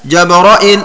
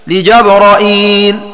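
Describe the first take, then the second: First: No long 'ee' follows the glottal stop. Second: A long 'ee' follows the glottal stop. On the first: "حذف الياء التي بعد الهمزة هكذا" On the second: "بفتح الجيم والراء وزيادة همزة مكسورة بعد الراء هكذا"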